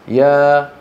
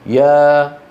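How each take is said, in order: The two takes are said the same way.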